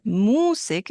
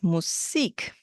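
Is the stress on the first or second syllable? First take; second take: first; second. First: The stress is on the first syllable. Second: The stress is on the second syllable. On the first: The speaker calls it wrong. "there's a shift in um, syllable stress. It's not Musik" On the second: The speaker calls it right. "it's Musik"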